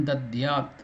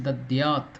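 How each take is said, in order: The two takes are said the same way.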